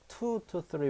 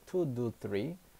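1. 'to' 단어는 명확한 t 소리로 시작합니다. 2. 'to' 단어는 부드러운 d 소리로 시작합니다. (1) "2 to 3 weeks인데" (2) "two do three로 들려요"

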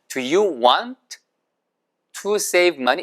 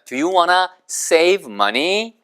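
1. want to는 t 소리를 가볍게 살려요. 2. want to는 wanna로 합쳐서 발음해요. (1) "want to를 발음할 때는 한 번만 발음하셔야 돼요" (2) "구어체서는 얘를 붙여가지고 WANNA처럼 발음을 합니다"

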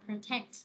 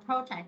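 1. Trọng âm nằm ở âm tiết thứ hai. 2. Trọng âm nằm ở âm tiết thứ nhất. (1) "Còn nhâm hai là protect" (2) "Còn nhâm một là protect đúng không?"

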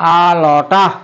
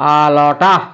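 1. শব্দগুলো সংক্ষিপ্ত হয়ে একসাথে জুড়ে বলা হয়। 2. শব্দগুলো সংক্ষিপ্ত হয়ে একসাথে জুড়ে বলা হয়।

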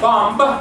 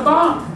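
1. El sonido de la b final se pronuncia. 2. El sonido de la b final se omite. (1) "No es bomb" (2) "Suena igual que mom"

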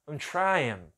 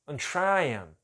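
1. Falado rápido, o 'I'm' quase desaparece. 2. Falado rápido, o 'I'm' quase desaparece.

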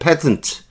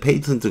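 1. 첫 모음은 'pat'처럼 소리 납니다. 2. 첫 모음은 'pay'처럼 소리 납니다. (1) "이게 맞습니다" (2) "배우던 발음의 그 발음이 틀린 거"

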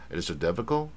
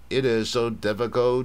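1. 'it is so' 是轻读的，而且连在一起说。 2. 每个词都说得完整，而且有重音。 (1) "那美国呢？" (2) "所以我们像英国是它比较是都念重"

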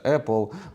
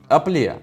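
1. Назву вимовляють у звичайній, стандартній манері. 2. Назву вимовляють з жартівливим спотворенням. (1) "я знаю, як вони бренди вимовляються" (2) "Взагалі-то я пожартував"

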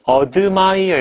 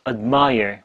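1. 첫 음절은 충분하고 또렷하게 발음돼요. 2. 첫 음절은 약해요. mire만 두드러져 들려요. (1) "admire 이렇게 하지 마시고요" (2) "얼핏 듣기에는 mire밖에 안 들려요"

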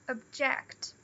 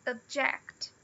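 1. A sílaba tônica é a segunda. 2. A sílaba tônica é a segunda.

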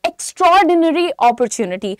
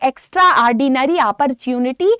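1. यह शब्द साफ़ और सावधानी से बोला गया है। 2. यह शब्द बिगाड़कर बोला गया है।

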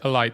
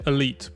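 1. Słowo wymawia się po angielsku. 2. Słowo wymawia się po francusku. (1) "Nie mówi się elite" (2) "mówi się elite, bo to z francuskiego"

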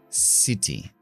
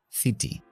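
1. El primer sonido es un sonido s. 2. El primer sonido no es un sonido s. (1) "sino city" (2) "No es city"

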